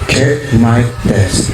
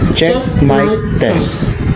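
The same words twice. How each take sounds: First: The voice has heavy reverberation added. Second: The voice is shifted to sound female. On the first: "Pump reverberation" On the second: "Male to female"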